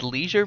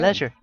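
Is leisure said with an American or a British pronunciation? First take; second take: American; British. First: It is said with an American pronunciation. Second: It is said with a British pronunciation. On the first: The speaker calls it wrong. "Everyone always says leisure" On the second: The speaker calls it right. "I go for the British pronunciation"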